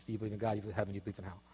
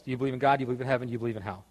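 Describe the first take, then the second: First: Fading to quiet. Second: Said in the usual way. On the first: Shown as a demonstration. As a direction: start soft and fade almost to nothing. Repeats questions, fading away.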